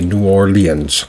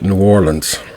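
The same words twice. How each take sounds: First: The name is said with an extra syllable. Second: The name is said with fewer syllables. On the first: "sometimes with an extra syllable" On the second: "Most locals pronounce it New Orleans"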